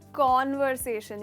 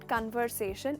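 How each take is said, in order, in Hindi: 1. पहले अक्षर में खुला 'aw' स्वर है। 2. पहले अक्षर में छोटा 'uh' स्वर है। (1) "बस वो वाला कौन यहाँ पे लगाना है" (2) "इट्स नॉट कन्वर्सेशन"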